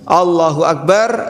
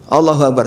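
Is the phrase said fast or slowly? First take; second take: slowly; fast. First: It is said slowly and calmly. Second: It is said very fast and hurried. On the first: The prayer is done seriously and enjoyed. The speaker calls it right. "Kalau sholat yang serius" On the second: The prayer is rushed without care. The speaker calls it wrong. "saking cepatnya"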